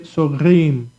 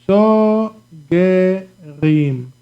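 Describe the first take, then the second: First: The g runs straight into the r. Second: A short vowel is heard between g and r.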